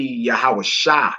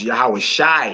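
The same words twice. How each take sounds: First: Yahweh Shai ending in an open AH, as SHA; correct pronunciation. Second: Yahweh Shai ending in a long EYE sound; disputed pronunciation. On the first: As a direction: end Shai as sha, no eye glide. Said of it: "It should be Yahweh Shai". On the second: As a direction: end Shai to rhyme with eye. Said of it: "a lot of brothers pronounce". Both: Shown as a demonstration.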